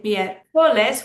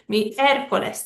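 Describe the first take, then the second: First: Miércoles as mier-CO-les, CO punched; wrong stress. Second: Miércoles as MIÉR-co-les; correct stress. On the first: Teacher showing what we don't say, miércoles stressed on CO. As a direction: hit the middle syllable CO in miércoles. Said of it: "We should stress the second to last syllable". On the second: Teacher showing what we say, miércoles stressed on MIÉR. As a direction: lean on the first syllable of miércoles. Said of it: "That's the third to last syllable". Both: Shown as a demonstration.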